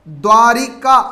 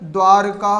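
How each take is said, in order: First: An 'i' vowel follows the 'r' sound. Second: No vowel follows the 'r' sound. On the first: The speaker calls it wrong. "द्वारिका शब्द ने होकर" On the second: The speaker calls it right. "द्वारका होगा"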